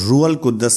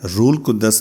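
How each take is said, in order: First: The h is kept and the d is doubled before a vowel. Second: The h is dropped and the d is doubled before a vowel. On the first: "ये लफ्ज रूहुल कुद्दस नहीं है" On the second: "रूल कुद्दस नहीं है"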